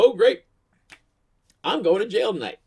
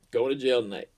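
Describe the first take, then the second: First: High, loud burst of mock despair. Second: Said in the usual way. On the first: Drunk driver pulled over by cops, loud mock despair. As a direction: wail it out high and loud, half joking. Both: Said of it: "and I just go".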